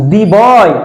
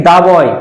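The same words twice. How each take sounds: First: "দি" said as "dee" before boy; "দি" with ee vowel. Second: "দা" said as "dah" before boy; "দা" with ah vowel. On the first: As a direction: say "দি" to rhyme with "see". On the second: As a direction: say "দা" with an open ah. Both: Shown as a demonstration. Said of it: "এখানে বলো দি বয় নাকি দা বয়".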